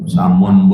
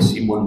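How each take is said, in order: First: The first vowel is an open a sound. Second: The first vowel is a front i sound. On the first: "Samun boleh ya" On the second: "simun boleh"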